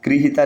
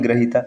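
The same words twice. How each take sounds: First: गृहीता with "gri" first; wrong form. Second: ग्रहीता with "gra" first; correct form. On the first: Teacher citing the rejected form, "gri" in गृहीता. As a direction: say गृहीता as "griheetaa". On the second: Teacher giving the correct form, "gra" in ग्रहीता. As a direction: say ग्रहीता as "graheetaa". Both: Shown as a demonstration. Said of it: "गृहीता नहीं".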